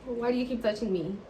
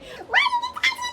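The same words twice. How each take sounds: First: Said in the usual way. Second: Very high squealing mock outburst; shrieked protest. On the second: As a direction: shriek it as if fed up with being touched. Acting her outburst at his touching.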